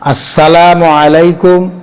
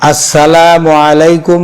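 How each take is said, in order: The two takes are said the same way.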